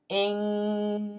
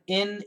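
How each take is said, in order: First: The ending has a back, throaty ng sound. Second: The ending is a nasal n sound. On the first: "We can say ing, back in the throat" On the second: "up here in the nasal, I N"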